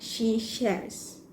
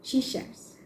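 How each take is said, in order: First: Slow careful "she shares" with the r; careful pronunciation. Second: Quick soft "she shares", r dropped, almost whispered; casual conversational. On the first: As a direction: say "she shares" slowly, sounding the r. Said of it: "we have to pronounce it properly". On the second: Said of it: "pronounce the words in conversation". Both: Shown as a demonstration.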